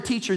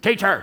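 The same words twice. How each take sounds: First: The word is said firmly, without anger. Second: The word is said in an angry tone. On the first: The speaker is firmly stating the truth. The speaker calls it right. "And I had to declare" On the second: The speaker is lashing out in anger. The speaker calls it wrong. "Not in an angry way. Teacher, not like that"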